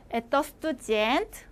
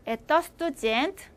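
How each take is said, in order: First: Slower, each syllable of 에떠 스투젠트 laid out clearly; slow repeat for learners. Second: Said in the usual way. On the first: Shown as a demonstration. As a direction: spell out 에떠 스투젠트 slowly for students to copy. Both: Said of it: "제가 두 번씩 읽을 테니까".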